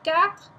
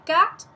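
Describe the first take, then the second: First: The word ends on an R, no vowel. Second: The word stops abruptly after the t. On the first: This is a middle way between the two. "you get the R but not the total E at the end" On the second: This is the northern way of saying it. "In the north they say quatre and they stop"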